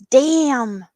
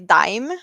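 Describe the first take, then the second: First: The vowel sounds like the one in 'jam'. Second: The vowel sounds like the one in 'time'. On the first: This is how a foreigner read it. "he's like" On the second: This is how Swedes say it. "we would say dime in Swedish"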